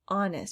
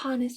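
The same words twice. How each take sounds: First: The word starts with no H sound. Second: The word starts with a clear H sound. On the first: The speaker calls it right. "You don't hear that H" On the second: The speaker calls it wrong. "We don't say honest"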